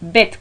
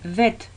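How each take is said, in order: First: The word begins with a b sound. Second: The word begins with a v sound. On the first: The letter has a dot inside. "como Barcelona, cuando tiene un punto dentro" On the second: The letter has no dot inside. "tipo como Valencia, cuando no tiene punto dentro"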